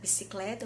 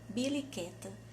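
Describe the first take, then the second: First: The word is pronounced as bicicleta. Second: The word is pronounced as biliqueta. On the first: The speaker calls it right. "eu fui aprender a falar bicicleta" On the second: The speaker calls it wrong. "eu falava biliqueta"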